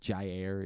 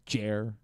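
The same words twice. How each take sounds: First: The name is said as two clear syllables. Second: The name is squeezed into one syllable. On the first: The speaker calls it right. "it's two very clearly two, syllables" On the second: The speaker calls it wrong. "you feel like you just have to say it in one syllable"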